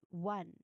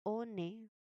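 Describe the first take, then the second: First: The word is said with a W sound. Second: The word is said without a W sound. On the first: The speaker calls it right. "but one. ... It uses the W sound" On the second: The speaker calls it wrong. "It's not one"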